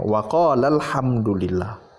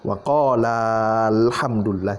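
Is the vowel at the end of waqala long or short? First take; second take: short; long. First: The final vowel of waqala is short. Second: The final vowel of waqala is long. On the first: The speaker calls it right. "harus disambung uh, menghilangkan matnya ... Tidak dibaca panjang" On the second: The speaker calls it wrong. "itu nggak boleh"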